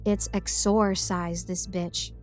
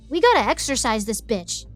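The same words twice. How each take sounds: First: Slow, drawn-out exorcise, "EX-or-size"; measured correction, exorcise with a long "or"; EXORCISE with clear OR. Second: Exorcise with a quick "er" middle; casual, punchy "exercise" sound in exorcise. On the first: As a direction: correct it slowly, stretching the OR in exorcise. Pasher corrects the word. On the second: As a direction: say exorcise as "EX-er-size". Narrator mispronounces, is then corrected. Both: Acted.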